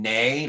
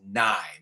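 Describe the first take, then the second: First: The vowel sounds like the one in day. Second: The vowel sounds like the one in high. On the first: The speaker calls it wrong. "You're saying neigh, like the sound a horse makes" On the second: The speaker calls it right. "The word you're looking for is nigh, meaning near"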